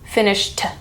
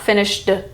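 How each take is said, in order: First: The ending is a short T sound. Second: The ending is an extra syllable. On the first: The speaker calls it right. "Finished is the T sound" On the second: The speaker calls it wrong. "It's not finished"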